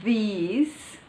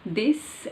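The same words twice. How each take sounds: First: "these" with a long ee and a buzzing z; slow, stretched "these"; long vowel. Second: "this" with a short i and an s ending; clipped short-vowel "this". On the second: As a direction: keep "this" brief, ending in a hiss. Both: Shown as a demonstration. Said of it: "difference between".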